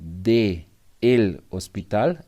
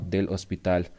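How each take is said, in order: First: The two words are said as separate syllables. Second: The two words merge into one syllable. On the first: This is the full form, also understood. "I understand. There is no problem" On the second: This is the usual fast everyday form. "we make a mix of both, and we're gonna say del"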